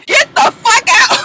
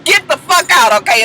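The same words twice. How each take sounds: First: High, slow, choked crying yell, louder; crying shout. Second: Steadier, barely raised, tidy dismissal; neat and cool. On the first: Baby Knees throwing Jock out, crying shout. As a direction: throw him out mid-sob, drawn out. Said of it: "here came the voice constriction again". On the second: Baby Knees closing the door on Jock, cool and neat. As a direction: say it like it's settled. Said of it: "she real neat with it". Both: Retold or imitated.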